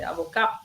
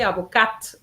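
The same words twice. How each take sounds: First: The final T sound is silent. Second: The final T sound is pronounced. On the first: It is the masculine form. The speaker calls it wrong. "they say avocat" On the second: It is the feminine form. The speaker calls it right. "Students didn't say avocat"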